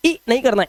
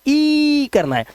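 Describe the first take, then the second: First: ई cut short, as "i" in dip; a brief ई, the wrong take; short vowel. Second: ई held long and high, "eee"; long vowel. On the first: Teacher showing what to avoid for double e, short vowel. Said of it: "double ई होता है long vowel sound". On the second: Teacher showing the double e sound, long vowel. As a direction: stretch ई out on a raised pitch. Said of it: "long vowel sound". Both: Shown as a demonstration.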